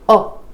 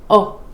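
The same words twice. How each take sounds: No difference in how they are said.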